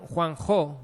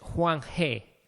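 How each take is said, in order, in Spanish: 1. La sílaba final se pronuncia 'ho'. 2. La sílaba final se pronuncia 'he'. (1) "yo lo había aprendido como Juanjo" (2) "mejor pronunciado es Juan He"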